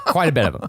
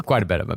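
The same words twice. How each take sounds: First: Laughing. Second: Said in the usual way. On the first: Real, not acted. Repeats phrase laughing.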